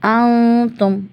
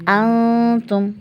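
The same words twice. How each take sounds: No difference in how they are said.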